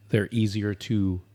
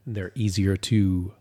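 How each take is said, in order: Both takes have the same delivery.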